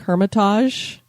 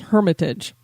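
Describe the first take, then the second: First: The word is said with a French-like sound. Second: The word is said with a plain English sound. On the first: The speaker calls it wrong. "I was going for more of a French sound or something" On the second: The speaker calls it right. "I believe the correct pronunciation is Hermitage"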